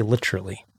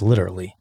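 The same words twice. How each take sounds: First: Literally with the middle syllable swallowed, "lit-rally"; literally as "litch-rully". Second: Said in the usual way. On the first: Retold or imitated. Quoting people who say it oddly, literally as "litch-rully". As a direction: squeeze literally into "LITCH-ruh-lee". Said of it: "How about people that say". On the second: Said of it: "versus literally".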